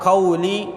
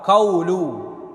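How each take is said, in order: First: The word ends with an 'i' vowel. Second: The word ends with a 'u' vowel. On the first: The word is in the genitive case. "dengan dibaca qauli berbaris bawah dengan kasrah li pada lam" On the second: The word is in the nominative case. "boleh pula dibaca dengan ar-rafa"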